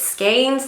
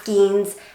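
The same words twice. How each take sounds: First: The word rhymes with 'lanes'. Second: The word does not rhyme with 'lanes'. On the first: The speaker calls it right. "like lanes" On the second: The speaker calls it wrong. "not skeins"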